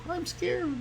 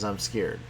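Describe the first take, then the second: First: Very high, soft, tiny frightened squeak; squeaky scared alien. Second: Said in the usual way. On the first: Pretend. Teacher voicing the alien's scared thought, high squeak. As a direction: squeak it out like a terrified little alien.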